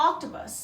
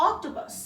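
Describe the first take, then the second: No difference in how they are said.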